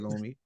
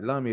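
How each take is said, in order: First: The first vowel is a long 'oo' sound. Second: The first vowel is a short 'uh' sound. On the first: "loom, then you say loomy" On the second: "the U should be soft, lum, like lummy"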